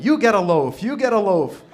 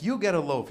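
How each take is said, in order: First: Big, high talk-show giveaway shout; Oprah. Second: Said in the usual way. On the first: Acted. Jesus handing out bread to the crowd, Oprah-style shouting. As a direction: holler it out to a whole studio audience. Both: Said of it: "He became like Oprah".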